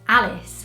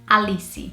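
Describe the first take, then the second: First: It is said with a British English pronunciation. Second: It is said with a Brazilian Portuguese pronunciation. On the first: "British people or even American people would say it as" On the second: "in Portuguese we would say"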